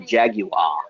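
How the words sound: It is said in a British accent. This is how the commercial says it. "they're speaking with a British accent"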